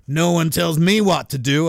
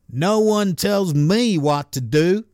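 First: Put-on second, fuller stab at a Missouri accent. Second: Slow, lightly attempted Missouri accent. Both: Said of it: "is that the right accent for someone in Missouri?".

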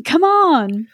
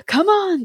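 First: Screamed again. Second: Sharp high scream of the wizard. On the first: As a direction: yell again to hurry him. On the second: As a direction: scream at him to hurry. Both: A narrator's reading. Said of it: "gave him a kick and screamed".

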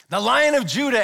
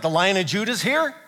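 First: Loud, higher-pitched proclamation; awed exclamation. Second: Mildly amazed, rising at the end; astonished question. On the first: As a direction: announce it as thrilling news. Exclaimed announcement of the promised Lion. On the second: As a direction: ask as if hardly believing the news. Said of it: "John's like". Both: Acted.

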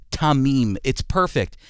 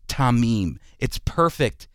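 The two takes are said the same way.

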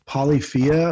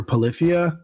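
First: Polyphia as "polly-FEE-uh"; first pronunciation. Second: Polyphia as "puh-LIF-ee-uh"; alternative pronunciation. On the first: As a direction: open "polly" at the start of Polyphia, then "fee-uh". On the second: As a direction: stress the "LIF" in Polyphia, with a reduced first syllable. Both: Shown as a demonstration. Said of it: "I don't know how to pronounce it".

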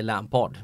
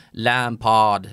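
First: Said in the usual way. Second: Lampard långsamt och utdraget på brittiska; säg Lampard med överdriven brittisk brytning; överdriven brittisk dialekt. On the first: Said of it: "utan man säger Lampard". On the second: Shown as a demonstration. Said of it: "överdriver heller inte, liksom, brittisk dialekt". (tillgjort brittiskt Lampard)

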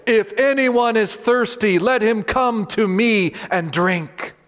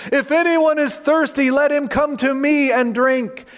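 First: Calling out high and slow; loud proclamation. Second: Shouting invitation. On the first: Jesus calling to the crowd at the feast, loud slow proclamation. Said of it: "said in a loud voice". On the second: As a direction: shout it across the temple courts. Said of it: "He's shouting out his invitation". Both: Acted.

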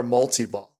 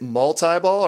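First: "multi-ball" with an ee sound; "multi-ball" rhyming its middle with "tea"; mul-tee-ball. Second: First "multi-ball" with a long I; "multi-ball" rhyming its middle with "tie". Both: Shown as a demonstration. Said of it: "Is it multi-ball or multi-ball?".

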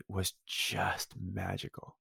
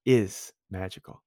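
First: Said in the usual way. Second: "is" drawn out slowly, set apart from "magical"; stress on IS. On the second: Real, not acted. Nominee correcting "was" to present tense, stress on "is".

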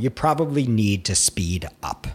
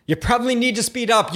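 First: Said in the usual way. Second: Higher and faster, pressing the point home; coaching writers to hurry past the censor, urgent; urgent emphasis. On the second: Shown as a demonstration. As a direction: push it, quick and insistent.

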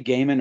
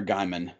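First: "Gaiman" with first syllable rhyming with day; first pronunciation. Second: Gaiman said as GUY-mun; "Gaiman" with first syllable rhyming with sky; alternative pronunciation. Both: Shown as a demonstration. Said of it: "do you say Gaiman or Gaiman".

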